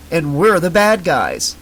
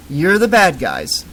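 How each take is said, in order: First: Said in the usual way. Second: Dopey singsong repeat; parroting. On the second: Acted. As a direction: echo it back like a parrot. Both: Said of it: "repeated like a parrot".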